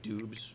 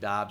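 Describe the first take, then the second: First: The vowel sounds like the one in food. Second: The vowel sounds like the one in odd. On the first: "instead of like Doobs" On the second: "I'm pronouncing it Dobbs"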